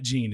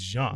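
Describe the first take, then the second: First: The name starts with a hard 'j' sound. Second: The name starts with a soft 'zh' sound. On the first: The speaker calls it wrong. "not Jean" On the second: The speaker calls it right. "It's Jean"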